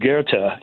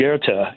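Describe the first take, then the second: First: The name is said with a German pronunciation. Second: The name is said with a German pronunciation.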